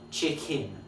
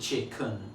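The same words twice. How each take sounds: First: The second syllable has a clear I vowel. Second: The second syllable has a schwa vowel. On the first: "with the second syllable having an I" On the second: "as opposed to"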